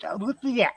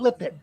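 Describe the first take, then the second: First: The name ends with a 'yet' sound. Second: The name ends with an 'id' sound. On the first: The speaker calls it right. "say it right. It's Lipiet" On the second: The speaker calls it wrong. "not Lipid"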